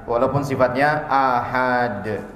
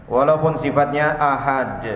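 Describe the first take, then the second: The two takes are said the same way.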